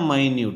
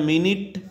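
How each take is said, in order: First: The first vowel sounds like 'eye'. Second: The first vowel is a short 'i'. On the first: It means very small. "మైన్యూట్ అంటే చాలా చిన్నది" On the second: It means sixty seconds. "ఒక నిమిషం"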